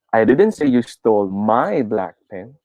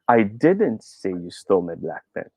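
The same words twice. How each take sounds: First: The stress falls on the word my. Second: The stress falls on the word didn't. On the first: "Try natin sa my" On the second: "put the stress on the second second word"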